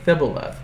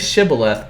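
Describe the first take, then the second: First: The word starts with a lisped, altered first sound. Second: The word starts with a clear 'sh' sound. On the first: The speaker calls it wrong. "They can't say it right" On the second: The speaker calls it right. "Say shibboleth"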